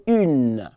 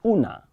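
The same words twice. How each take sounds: First: UNE with no "ah" ending; French article "une", ending on a held N; correct French une. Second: UNA ending in a clear "ah"; mispronounced French article, "OO-nah"; wrong ending. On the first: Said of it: "I say une". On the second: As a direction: say "una" with an open A at the end. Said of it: "Not una". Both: Shown as a demonstration.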